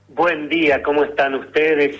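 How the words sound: The greeting sounds clearly happy and cheerful.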